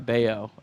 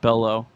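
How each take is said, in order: First: The middle consonant is a Y sound. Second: The middle consonant is an L sound. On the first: The speaker calls it right. "Bayo, yeah" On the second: The speaker calls it wrong. "It's not it's not Bello"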